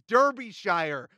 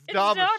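First: It is said as two separate words joined. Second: It is said as one smoothly blended word. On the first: The speaker calls it wrong. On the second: The speaker calls it right.

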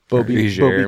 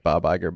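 First: The break falls after Bobby. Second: The break falls after Bob.

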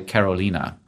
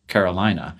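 First: The name is said with Spanish sounds. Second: The name is said with English sounds. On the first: The speaker calls it right. "I'm Uruguayan, so say Carolina" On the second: The speaker calls it wrong. "you almost definitely pronounced that wrong"

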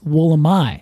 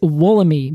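First: The word is given its Australian local pronunciation. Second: The word is given its American reading pronunciation. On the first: This is how it is said where the tree comes from. "which they pronounce Wollemi" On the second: This is how it is read from the spelling in the US. "When we are in the United States ... our pronunciation is Wollemi"

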